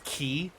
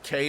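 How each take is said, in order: First: The word rhymes with 'see'. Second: The word rhymes with 'day'. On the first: The speaker calls it right. "it's key?" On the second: The speaker calls it wrong. "isn't the word K like actually not K"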